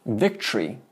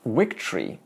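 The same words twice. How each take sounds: First: Victory with a hard English v; wrong-way victory with a full v. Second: Victory with a soft w-like v; Sanskrit-style soft v in Victory; right victory. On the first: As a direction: say victory with teeth on lip, v. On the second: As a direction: say Victory with lips barely touching, almost w. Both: Shown as a demonstration.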